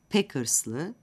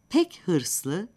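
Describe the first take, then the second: First: The h sound of hırslı is dropped. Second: The h sound of hırslı is heard.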